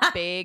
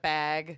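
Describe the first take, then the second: First: It has the local Minnesotan vowel. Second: It has a general American vowel. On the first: This is how locals say it. The speaker calls it wrong. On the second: This is the standard way to say it. The speaker calls it right.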